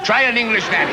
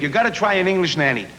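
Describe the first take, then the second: First: Lightly imitated big voice from the diaphragm; mock Welsh singer, a bit higher. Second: Said in the usual way. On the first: Comedian imitating the singer who suggested a nanny, hint of a diaphragm voice. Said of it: "Tom talks like that, you know, from his diagram". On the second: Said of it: "Tom talks like that".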